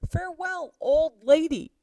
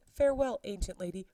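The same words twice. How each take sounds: First: Put-on Farewell jumped much higher, old lady much louder; louder, higher jeering goodbye to the nurse; bigger mock farewell. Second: A teasing singsong goodbye; mocking send-off to the nurse; mock farewell. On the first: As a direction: push the taunt further, sneering. Mercutio mocking farewell.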